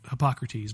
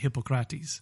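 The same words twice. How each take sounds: First: It is said with an English pronunciation. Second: It is said with a Greek pronunciation.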